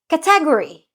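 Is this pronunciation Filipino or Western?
Filipino. It is said with a Filipino pronunciation. "We say"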